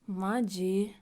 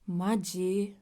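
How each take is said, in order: First: It is said in an annoyed tone. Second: The same.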